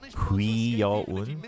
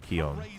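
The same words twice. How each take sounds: First: The vowels are said fully and carefully. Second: The vowels are reduced in quick speech. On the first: "the correct pronunciation, the technical pronunciation would be Kion" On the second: "when you say it fast, you don't, like, emphasize the vowels as much. You just say Kion"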